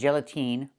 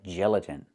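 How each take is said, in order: First: The last vowel is a long E sound. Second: The last vowel is a short I sound. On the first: The speaker calls it wrong. "not the long E like green beans" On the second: The speaker calls it right. "It's the short I like this is"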